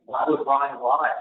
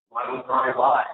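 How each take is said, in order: First: Slowed down, weighing each word; slow rhetorical question. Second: Much higher, disbelieving, leaning on "would"; incredulous question. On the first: Asking the listener slowly why Ryan would lie. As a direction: ask it slowly, letting it hang. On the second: Pressing the listener again with high-pitched disbelief. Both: Real, not acted.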